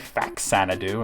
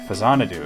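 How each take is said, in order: First: The middle consonant is pronounced as 'ks'. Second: The middle consonant is pronounced as 'z'. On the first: It is read from what someone else wrote. The speaker calls it wrong. "I never say Faxanadu unless I'm reading what you said" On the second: It is the speaker's own usual way of saying it. The speaker calls it right. "I say Fazanadu, because that's what it is"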